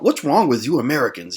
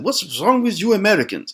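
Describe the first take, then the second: First: It is said in the speaker's ordinary accent. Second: It is said with an imitated German accent.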